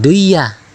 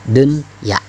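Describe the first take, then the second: First: The n merges into the y and disappears. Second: The n is pronounced clearly before the y. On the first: The speaker calls it wrong. "dibacanya jangan duya ya" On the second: The speaker calls it right. "tapi tetap bacaannya dunya"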